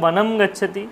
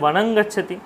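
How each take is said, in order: First: The first word ends with a clear m sound. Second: The first word ends with a nasal ng sound.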